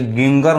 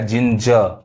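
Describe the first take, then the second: First: The g's are pronounced as hard g sounds. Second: The g's are pronounced as j sounds. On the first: The speaker calls it wrong. "ये गिंगर नहीं पढ़ाएगा" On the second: The speaker calls it right. "लेकिन क्या पढ़ाएगा"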